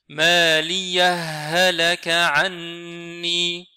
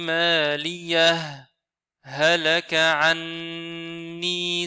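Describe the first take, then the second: First: The two h sounds merge with no stop. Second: A brief breathless stop comes after the first word. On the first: "ce ha-là, il sera complètement fusionné dans ce deuxième ha" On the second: "s'arrêter sur la dernière lettre sans respiration"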